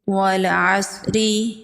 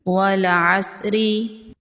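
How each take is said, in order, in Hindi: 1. आखिरी स्वर पूरा बोला जाता है। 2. आखिरी स्वर पूरा बोला जाता है।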